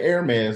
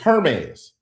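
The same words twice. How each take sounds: First: The word starts without an H sound. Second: The word starts with an H sound. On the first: The speaker calls it wrong. "you saying Hermes like it ain't spelled H E R" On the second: The speaker calls it right. "It's Hermes"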